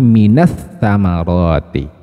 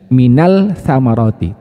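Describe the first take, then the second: First: The L merges into a doubled S sound. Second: The L sound is pronounced clearly before the S. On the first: The speaker calls it right. "tapi minas samaroti" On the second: The speaker calls it wrong. "sudah tidak ada lagi minal samaroti"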